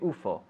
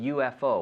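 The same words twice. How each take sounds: First: It is said as a single word. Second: Each letter is named separately. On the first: "whereas in Spanish you'd say U F O" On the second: "we usually say U F O"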